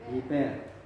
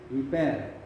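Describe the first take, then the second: The two takes are said the same way.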